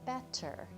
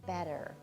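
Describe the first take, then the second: First: The middle consonant is a clear T sound. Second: The middle consonant is a soft D sound. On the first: The speaker calls it wrong. "you'd think, oh, it's going to be pronounced like this" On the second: The speaker calls it right. "We pronounce it with a soft D"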